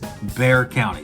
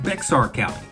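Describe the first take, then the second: First: The first word is not pronounced as spelled. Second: The first word is pronounced the way it's spelled. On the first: The speaker calls it right. "It is Bexar County" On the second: The speaker calls it wrong. "It is not Bexar County. I will tell you it looks like Bexar County because it's spelled B E X A R"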